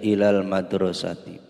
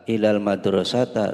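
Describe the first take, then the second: First: The last word ends in an i vowel. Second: The last word ends in an a vowel. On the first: The speaker calls it right. "harus dibaca kasroh jar" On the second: The speaker calls it wrong.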